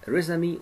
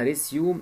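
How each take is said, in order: First: The word ends with a 'may' sound. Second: The word ends with a 'zoom' sound. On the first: It means a CV. "ممكن ننطقها رسمي وهي في الحاله دي هتساوي سي في" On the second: It means to summarize or restart. "ممكن نقولها ريسيوم يبقى هتساوي سمرايز او ريستيت"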